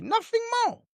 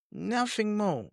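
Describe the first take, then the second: First: "Nothing more" leapt up sharply in pitch, cutting the point off; emphatic final word. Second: "Nothing more" repeated softly, dropped down and settled; quiet echo. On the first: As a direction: slam the door on it with a high, sharp "Nothing". Angry dismissal closing a rant. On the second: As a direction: let the repeat fall away, quieter and final. Quiet echo after the outburst. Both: Real, not acted.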